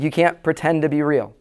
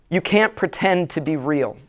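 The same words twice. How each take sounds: First: Said in the usual way. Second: Slow, weighty "can't" in "You can't pretend to be real"; slow emphasis. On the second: Shown as a demonstration. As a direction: press down on "can't" and let the line land slowly.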